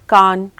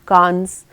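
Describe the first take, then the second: First: The word ends without an s sound. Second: The word ends with an s sound.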